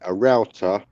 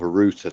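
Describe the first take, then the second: First: Router is said with an American pronunciation. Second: Router is said with a British pronunciation. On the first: "for people in the U K" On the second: "the equivalent of a router to us"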